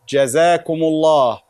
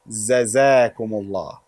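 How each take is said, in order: First: The word begins with a j sound. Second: The word begins with a z sound. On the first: The speaker calls it right. "Jim is correct" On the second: The speaker calls it wrong. "not Zazakumullah"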